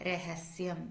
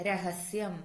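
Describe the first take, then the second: Both takes have the same delivery.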